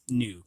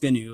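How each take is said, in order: First: The g at the start is silent. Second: The g at the start is sounded. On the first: The speaker calls it right. "it's pronounced new because the G is silent" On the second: The speaker calls it wrong. "it isn't pronounced GNU"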